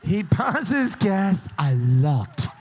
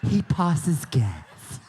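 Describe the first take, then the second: First: Slow, drawn-out imitation of her Southern accent; slow Southern drawl, lightly imitated. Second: Very slow, dreamy Southern drawl, imitating her; slow mock-romantic Southern drawl; romantic Southern accent. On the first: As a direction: echo her Southern accent back, stretched out. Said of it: "she said it with a lovely Southern accent". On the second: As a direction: make the Southern accent sound romantic and drawn out. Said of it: "It almost sounded romantic".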